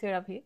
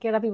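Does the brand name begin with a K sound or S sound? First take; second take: S sound; K sound. First: The name begins with an S sound. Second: The name begins with a K sound. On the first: The speaker calls it right. "আবারও বলে দিই সেরাভি" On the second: The speaker calls it wrong. "আমি কেরাভি বলেছিলাম ভুল করে"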